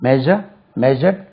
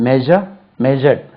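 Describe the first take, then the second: The two takes are said the same way.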